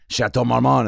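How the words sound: It is said with an exaggerated French accent.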